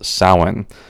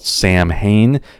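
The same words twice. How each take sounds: First: The word is pronounced the Irish way. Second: The word is sounded out letter by letter. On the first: The speaker calls it right. "but it's actually pronounced Samhain" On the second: The speaker calls it wrong. "It looks like it's spelled Samhain, and that is how you will hear it pronounced sometimes on TV shows"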